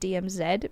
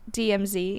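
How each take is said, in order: First: The last letter does not rhyme with the first. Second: The last letter rhymes with the first letter. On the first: The speaker calls it wrong. "it cannot be D M Z" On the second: The speaker calls it right. "It has to be D M Z because it rhymes"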